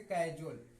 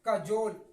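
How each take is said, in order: First: The word ends with a 'jewel'-like sound. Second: The word ends with a 'jole' sound. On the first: The speaker calls it wrong. "ये गलत है" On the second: The speaker calls it right. "इसका सही उच्चारण क्या होगा? कजोल"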